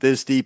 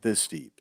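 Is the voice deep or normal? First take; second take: normal; deep. First: It is said in a normal speaking voice. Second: It is said in an artificially deepened voice. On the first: "if your voice isn't this deep" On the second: "you make it this deep"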